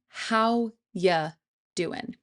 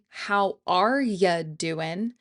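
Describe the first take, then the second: First: The word 'are' is left out entirely. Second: The word 'are' is said after 'how'. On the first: "We're saying" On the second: "So we aren't saying"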